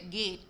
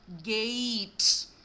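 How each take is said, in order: First: ഗേറ്റ് with a short flat e; ഗേറ്റ്, the way it is written; Malayali pronunciation. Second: ഗേറ്റ് with a gliding ei, slow and loud; correct pronunciation. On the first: Teacher showing the Malayali gate. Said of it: "ഗേറ്റ് അല്ല". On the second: Teacher modelling the native gate for the class. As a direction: stretch the diphthong in ഗേറ്റ്. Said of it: "അവിടെ വരുന്നത് diphthong ആണ്". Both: Shown as a demonstration.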